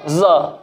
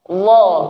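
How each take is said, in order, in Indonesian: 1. Dimulai dengan bunyi z yang mendesis. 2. Dimulai dengan bunyi dh yang lembut, tidak mendesis. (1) "Jangan za, tidak mendesis. Jangan sampai za, za, za. Tidak tepat" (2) "Yang tepat adalah dha, dha, dha"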